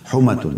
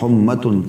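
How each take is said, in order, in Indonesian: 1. Bunyi m-nya tunggal dan dibaca pendek. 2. Bunyi m-nya rangkap dan dibaca panjang. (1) "tanpa tasydid" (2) "Maaf tadi saya keliru baca humma ya"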